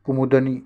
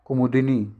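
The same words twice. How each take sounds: First: कुमुदनी as "kumud-ni"; no vowel i after द in कुमुदनी; wrong, missing i. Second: कुमुदिनी as "kumu-di-ni"; correct short i. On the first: Teacher shows students the wrong form, "kumud-ni". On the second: Teacher corrects the word for students, clear "di" in कुमुदिनी. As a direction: sound the i after द in कुमुदिनी. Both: Shown as a demonstration. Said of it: "ये गलत है आपका".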